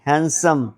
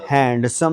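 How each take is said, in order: First: हैंडसम with the d dropped; smooth हैंडसम as 'HAN-sum'; correct pronunciation. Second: हैंडसम with the d sounded, 'hand-sum'; wrong pronunciation. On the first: Teacher correcting the sounded d, correct pronunciation. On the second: Teacher showing what not to say, wrong pronunciation. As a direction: misread हैंडसम with an audible d. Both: Shown as a demonstration. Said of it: "हैंडसम नहीं".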